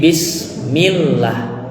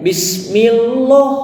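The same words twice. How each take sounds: First: The 'lah' of Allah is read thin. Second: The 'lah' of Allah is read heavy. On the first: The speaker calls it right. "tapi bismillah" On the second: The speaker calls it wrong. "kita tidak boleh membacanya bismillah"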